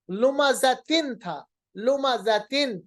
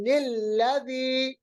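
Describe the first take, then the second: First: लुमज़तिन said slowly with the full tin ending; original word. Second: लुमज़तिनिल्लज़ी joined with a linking ni; nun qutni reading. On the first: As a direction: stretch out लुमज़तिन. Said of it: "लुमज़तिन के बजाय हम पढ़ेंगे". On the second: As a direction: recite लुमज़तिनिल्लज़ी in tajweed style. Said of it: "दूसरे जेर को बनाएंगे हम नून जेर नि". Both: Shown as a demonstration.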